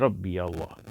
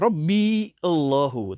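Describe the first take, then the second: First: The two words are linked with a y sound. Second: The two words are kept separate without linking. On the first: The speaker calls it right. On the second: The speaker calls it wrong.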